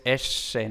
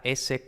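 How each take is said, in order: First: "S" with a retracted, apico-alveolar s, close to sh; raspy northern-Spain "S"; raspy Castilian S. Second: Said in the usual way. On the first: Shown as a demonstration. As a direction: say "S" with the tongue tip raised, almost "eshe". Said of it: "esta S carrasposa". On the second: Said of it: "que no es S".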